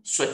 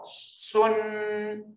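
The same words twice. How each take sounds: First: 顺 brief with a t stop; short tone. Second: 顺 high, level and drawn out; long tone. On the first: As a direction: cut 顺 off at once. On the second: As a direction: hold 顺 on a high note. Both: Shown as a demonstration. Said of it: "长音、短音哦".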